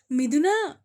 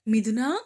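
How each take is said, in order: First: Louder, higher call. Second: Loud call up the stairs; calling out loudly. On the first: Calling her daughter-in-law again, higher and louder. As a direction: stretch the name out, higher and louder. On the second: Mother-in-law calls daughter-in-law from downstairs, loud call. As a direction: call her name loud, rising. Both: A narrator's reading. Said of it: "ఎందుకంత గట్టిగా అరుస్తున్నావ్".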